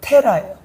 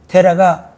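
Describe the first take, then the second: First: The name starts with a strongly aspirated t. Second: The name starts with a plain d-like consonant.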